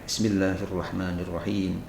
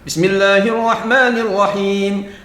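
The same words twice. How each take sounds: First: It is said quietly, barely audible. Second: It is said aloud, clearly audible.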